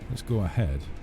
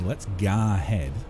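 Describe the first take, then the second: First: The word go has a standard vowel. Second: The word go is said like ga.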